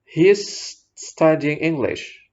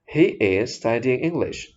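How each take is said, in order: First: He and is are joined into one syllable. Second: He and is are said as separate words. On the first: "his tadi kan dijadikan satu ya pengucapannya" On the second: "ini Anda pisahkan"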